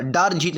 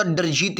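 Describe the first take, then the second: First: "डर जीत" with डर stretched to "daar"; wrong long vowel. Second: "डर जीत" with a short "a" in डर; short first vowel. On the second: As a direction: say डर with a brief, unlengthened vowel. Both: Shown as a demonstration. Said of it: "बड़ा की मात्रा नहीं लगेगी".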